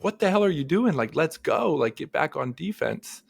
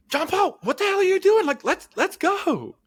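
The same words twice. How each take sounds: First: Toned-down imitation of a coach, slightly high; retold coach call. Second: High, loud mock sideline yell; imitated coach yell. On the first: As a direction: lightly quote a coach urging a player on. Repeats coach's words more mildly. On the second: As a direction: imitate a coach hollering at a player, pitched way up. Retelling coach yelling from bench.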